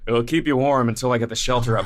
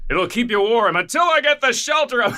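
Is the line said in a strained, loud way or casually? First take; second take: casual; loud. First: The line is said casually and offhandedly. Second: The line is said loudly and with strain. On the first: The speaker calls it right. "it's just a whatever line" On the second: The speaker calls it wrong. "It's like this bizarre"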